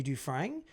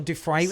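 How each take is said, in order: First: "Dufresne" ending in a nasal "-frang"; "Dufresne" with an "ng" sound at the end; alternative pronunciation. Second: "Dufresne" ending in an open "-fray"; "Dufresne" with no n sound at the end; alternative pronunciation. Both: Shown as a demonstration. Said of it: "however you say it".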